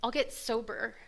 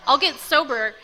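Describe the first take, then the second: First: Said in the usual way. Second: "I'll get sober" higher and louder, GET hit hard; angry vow. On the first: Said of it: "I just go". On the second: Retold or imitated. Spiting her family, angry loud "I'll get sober". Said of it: "but super angry".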